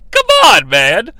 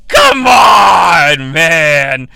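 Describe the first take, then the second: First: Very high-pitched, loud whine; squeaky exasperation. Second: Loud, fed-up call; exasperated shout. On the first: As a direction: squeal it in disbelief. Catchphrase repeated, higher. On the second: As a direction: throw your hands up and yell. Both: Acted.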